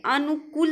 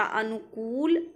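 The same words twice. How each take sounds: First: अनुकूल as "anukkul", short last vowel; wrong pronunciation. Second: अनुकूल slowly, with long "kool"; correct pronunciation. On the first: Teacher showing students the error, अनुकूल as "anukkul". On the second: Teacher correcting students, अनुकूल slow with long "kool". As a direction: draw out the last vowel of अनुकूल. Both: Shown as a demonstration. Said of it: "अनुकूल नहीं होता".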